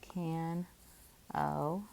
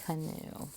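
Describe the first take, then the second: First: It is said as can, then oh. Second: It is said as ka, then noo. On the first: The speaker calls it wrong. "it looks like can o, but can o is not a word" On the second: The speaker calls it right. "Our word we know it as is ka, new"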